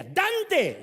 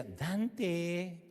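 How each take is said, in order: First: Loud, high, sharp call of the name; angry mother calling. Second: Soft, gentle call of a name; sweet mother calling. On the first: Mother yells for her son an hour late to dinner, loud and high. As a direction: yell for the late kid. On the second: Mother calls her son softly when there is dessert. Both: Retold or imitated. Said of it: "Si decía".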